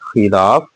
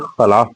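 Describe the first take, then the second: First: The first vowel is an 'i' sound. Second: The first vowel is not an 'i' sound. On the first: The speaker calls it right. "ये खे के नीचे जेर है" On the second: The speaker calls it wrong. "कई अक्सर बच्चे से खिलाफ पढ़ते हैं"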